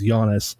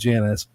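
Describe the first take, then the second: First: The name begins with a Y sound. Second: The name begins with a J sound. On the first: This is the proper pronunciation. The speaker calls it right. "the name of the fucking place is Giannis" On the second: This is how the locals say it. The speaker calls it wrong. "not Janice"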